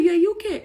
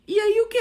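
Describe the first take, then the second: First: High, loud and baffled again; confused retort. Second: High, loud and baffled; confused retort. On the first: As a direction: fire it back, puzzled. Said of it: "Eu mandei". (pergunta confusa, mais alta) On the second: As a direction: throw the question back, lost. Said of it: "Aí eu fui e falei assim". (pergunta perdida, mais alta e aguda) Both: Retold or imitated.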